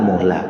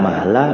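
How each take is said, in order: First: The first vowel after m is u. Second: The first vowel after m is a. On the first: "bidomil mim" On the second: "wa fathiha, dan di fathah mimnya"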